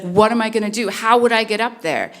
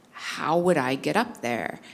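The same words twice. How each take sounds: First: Higher, louder imitation of a distressed kid; upset crying child. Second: Said in the usual way. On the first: Crying son asking mom how he'd escape, imitated upset. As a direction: plead like a child close to tears. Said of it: "he's crying, like, he's very upset". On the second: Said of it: "And he's like".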